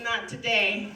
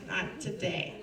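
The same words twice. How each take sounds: First: Not today said firmly, falling on today; firm refusal. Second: Not today dropped much softer, falling away; hushed repeat. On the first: Telling Satan firmly, not today. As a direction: plant your feet on today. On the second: To Satan again, a much softer not today. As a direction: repeat Not today almost under breath. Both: Shown as a demonstration. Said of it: "Nay, nay, Satan".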